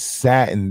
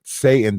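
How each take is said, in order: First: The first vowel sounds like the one in 'cat'. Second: The first vowel sounds like the one in 'say'. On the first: The speaker calls it right. "That is satin" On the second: The speaker calls it wrong. "That is not Satan. Don't y'all pronounce it Satan"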